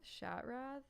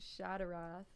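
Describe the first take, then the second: First: No vowel is heard between t and r. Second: An extra vowel is heard between t and r. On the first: The speaker calls it wrong. "That doesn't sound right" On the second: The speaker calls it right. "I feel like it should be an A"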